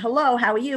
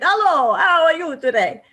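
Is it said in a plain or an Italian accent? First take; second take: plain; Italian. First: It is said in a plain accent. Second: It is said in a strong Italian accent.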